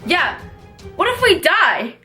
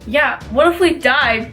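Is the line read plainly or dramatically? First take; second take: dramatically; plainly. First: It is read in an exaggerated, dramatic voice. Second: It is read in a plain, flat voice.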